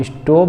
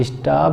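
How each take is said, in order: First: स्टॉप said as 'ishtop' with an o; mistaken 'stope'. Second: स्टॉप said as 'ishtaap' with aa; mistaken 'staap'. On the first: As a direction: put a closed 'oh' in स्टॉप. (स्टॉप को 'इस्टोप' की तरह बोलें) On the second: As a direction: put a long open 'aa' in स्टॉप. (स्टॉप को 'इस्टाप' की तरह बोलें) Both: Shown as a demonstration. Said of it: "भी नहीं बोलना है".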